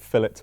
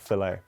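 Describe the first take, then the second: First: It is said the British way. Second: It is said the American way. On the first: "we pronounce it fillet burger" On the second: "and not filet"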